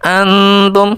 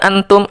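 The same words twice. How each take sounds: First: The n is nasalized and held longer. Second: The n is pronounced clearly without nasal hold. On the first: The speaker calls it right. "harus didengungkan, ditahan" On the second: The speaker calls it wrong. "tidak boleh dibaca jelas, tidak boleh dibaca seperti ini"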